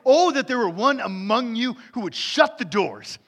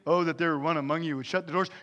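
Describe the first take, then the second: First: It is read with strong emotion. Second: It is read flatly, without emotion.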